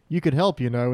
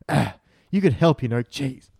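First: The line is said flatly, without expression. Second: The line is said expressively, with feeling.

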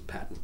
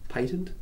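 First: It uses the US pronunciation of patent. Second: It uses the Australian pronunciation of patent. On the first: "the US says patent" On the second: "Australians tend to say patent"

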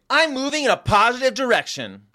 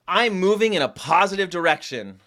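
First: It is said with excited, exclamatory energy. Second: It is said flatly, without much energy.

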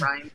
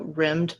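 First: The vowel is long, like in 'rhyme'. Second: The vowel is short, like in 'rim'. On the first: The speaker calls it right. "it's just Rhyme" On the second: The speaker calls it wrong. "I always want to look at it and go Rimmed, but it's not Rimmed"

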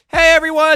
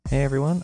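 First: It is said loudly, almost yelling. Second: It is said softly and gently.

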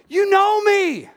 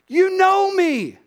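Both takes have the same delivery.

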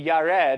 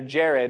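First: The name is pronounced in a non-English way. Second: The name is pronounced in the English way.

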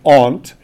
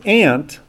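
First: Aunt is said the Virginia way. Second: Aunt is said in his usual San Diego way.

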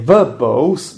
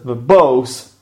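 First: The stress is on the first syllable. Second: The stress is on the second syllable. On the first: The speaker calls it wrong. "I didn't say verbose" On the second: The speaker calls it right. "but I said verbose"

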